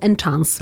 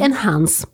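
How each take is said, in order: First: The word is said as 'enchance'. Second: The word is said as 'enhance'. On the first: The speaker calls it wrong. "a nie najtość boską enchance" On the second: The speaker calls it right. "wymawiamy to słowo po olgowemu. Czyli enhance"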